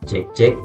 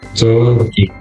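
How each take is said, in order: First: The voice is heard without added compression. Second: The voice is heard with added compression. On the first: "ini suara normal" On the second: "saya coba atur kompresor lagi"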